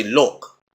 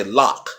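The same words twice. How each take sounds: First: "lock" with a rounded London vowel, near "look"; British-style rounded "lock"; London pronunciation. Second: "lock" with an open American "ah" vowel; American pronunciation. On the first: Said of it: "if you're over in London". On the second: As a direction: say "lock" as "lahk". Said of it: "In America, you may hear". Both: Shown as a demonstration.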